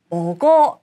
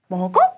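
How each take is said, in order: First: The pitch falls at the end. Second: The pitch rises at the end. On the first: It gives an answer. "끝을 내려주면 대답" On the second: It asks a question. "문장 끝을 올려주면 질문"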